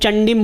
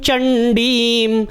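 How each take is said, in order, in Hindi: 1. अंतिम m से पहले का स्वर ह्रस्व है। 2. अंतिम m से पहले का स्वर दीर्घ है। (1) "बहुत सारे लोग चंडीम बोल देते, चंडीम तो छोटी ई नहीं है" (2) "बड़ी ई की मात्रा है"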